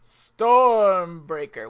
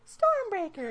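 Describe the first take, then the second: First: It is said grandly, with big drama. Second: It is said plainly, without drama.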